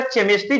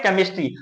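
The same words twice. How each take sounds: First: केमिस्ट्री said with ch, chemistri; wrong Chemistry. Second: केमिस्ट्री said with a k sound, kemistri; correct Chemistry. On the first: Teacher shows the wrong ch reading of केमिस्ट्री. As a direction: start केमिस्ट्री with a ch sound, as the mistake. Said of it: "जो कि गलत है". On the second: Teacher models केमिस्ट्री with a hard k. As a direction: say केमिस्ट्री starting with k, not ch. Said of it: "इसको हम लोग पढ़ते हैं केमिस्ट्री". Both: Shown as a demonstration.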